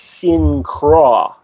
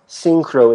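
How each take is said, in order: First: The word ends in an open 'ah' vowel. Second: The word ends in a rounded 'oh' vowel. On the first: The speaker calls it right. "it's syncra" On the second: The speaker calls it wrong. "it's not synchro"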